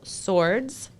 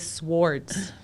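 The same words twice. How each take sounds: First: The W sound is silent. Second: The W sound is clearly pronounced. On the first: The speaker calls it right. "I have to consciously not say swords" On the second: The speaker calls it wrong. "And I always pronounce that W. I want to say swords"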